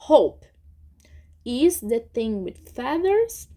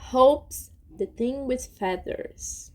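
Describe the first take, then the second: First: Hope and is are said as separate words. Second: Hope and is are contracted into one syllable. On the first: This is how it is written and read. "como que a gente lê" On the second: This is how it is usually heard. "geralmente a gente escuta"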